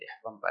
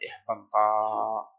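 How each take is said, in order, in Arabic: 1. تنتهي الكلمة بهمزة. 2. تنتهي الكلمة بحرف مد. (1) "بدل إحبنطأ" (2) "يبدلونها ربما من جنس حركة ما قبل"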